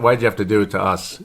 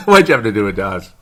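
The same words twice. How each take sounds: First: Said in the usual way. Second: Laughing repeat. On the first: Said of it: "I pick up the Aussie accent sometimes". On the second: Shown as a demonstration.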